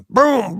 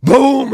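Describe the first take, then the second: First: Higher vocal boom; a quick shotgun blast; imitating the shotgun going off. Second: A much higher, louder, bigger vocal boom; imitating a sniper rifle cracking. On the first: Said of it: "all of a sudden". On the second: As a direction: make the rifle blast the loudest. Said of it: "the sniper rifle goes off".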